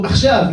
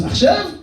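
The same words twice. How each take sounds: First: "Achshav" higher, falling like a command; firm cue. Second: "Achshav" shooting up very high at the end; incredulous question. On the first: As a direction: give "Achshav" as a decisive go signal. Retold phone order to fire. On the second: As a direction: imitate a friend double-checking with a high, questioning "Achshav". Friend questions the cue. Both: Retold or imitated.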